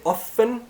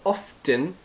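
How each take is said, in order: First: The word is said with no T sound. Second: The word is said with a T sound. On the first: "without the T" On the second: "with the T"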